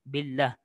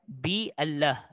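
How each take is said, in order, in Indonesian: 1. Kata-katanya tersambung langsung tanpa vokal tambahan. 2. Vokal 'a' tambahan diucapkan setelah 'bi'. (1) "Billah terus sambung" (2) "Salah kalau awak baca dengan baris atas"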